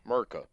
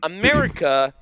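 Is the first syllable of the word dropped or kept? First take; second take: dropped; kept. First: The word is said without its first syllable. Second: The word is said with its first syllable. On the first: The speaker calls it wrong. "not Merca" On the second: The speaker calls it right. "we're saying America"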